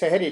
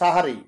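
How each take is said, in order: First: The word is said with 'e' vowels: sehe-ri. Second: The word is said with 'a' vowels: saha-ri. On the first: The speaker calls it wrong. "আমরা অনেকে ভুল করি সেহেরি বলি। এই শব্দটি সেহেরি না" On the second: The speaker calls it right. "এই শব্দটি হলো সাহারি"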